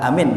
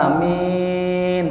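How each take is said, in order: First: The vowels are said short. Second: The first vowel is held long. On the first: The speaker calls it wrong. "Dibaca pendek nggak ya" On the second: The speaker calls it right. "panjang A-nya"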